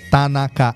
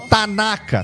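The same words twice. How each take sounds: First: All syllables are even, with no stress. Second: One syllable carries a clear stress. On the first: The speaker calls it right. "é átono, é flat" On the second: The speaker calls it wrong. "como eu falo, tanaka, tanaka, tanaka, não"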